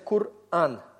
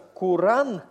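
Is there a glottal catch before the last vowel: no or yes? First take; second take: yes; no. First: A glottal catch comes before the last vowel. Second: The vowels run together with no catch. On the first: The speaker calls it right. "у вас получается «кур-ан». Гортанная смычка" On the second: The speaker calls it wrong. "вместо «куран»"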